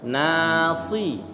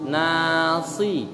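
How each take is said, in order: Both takes have the same delivery.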